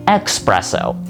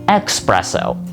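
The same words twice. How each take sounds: First: A k sound comes before the s. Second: The same.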